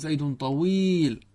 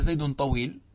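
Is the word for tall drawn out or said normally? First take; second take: drawn out; normal. First: The vowel in the last word is stretched out. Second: The last word is said at normal length. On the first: He is extremely tall. "إذا مددتها فإنه يشعر بفرط الطول" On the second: He is of ordinary tallness. "هكذا طبيعي"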